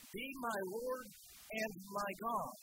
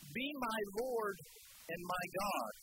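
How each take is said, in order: First: Each word slowed and set apart, stress on God; preacher repeating Thomas's confession to the congregation, slow and emphatic. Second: Slow, reverent, each word weighed; slow reverent confession. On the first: Shown as a demonstration. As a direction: drag it out, lean on God. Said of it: "repeats slowly". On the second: Acted. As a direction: let the awe slow you down. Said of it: "he said this".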